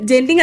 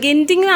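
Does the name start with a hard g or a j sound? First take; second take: j sound; hard g. First: The name starts with a j sound. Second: The name starts with a hard g sound. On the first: The speaker calls it wrong. "ജെന്റിങ് അല്ല കേട്ടോ" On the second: The speaker calls it right. "ഗെന്റിങ് ആണ് പ്രൊണൗൺസിയേഷൻ"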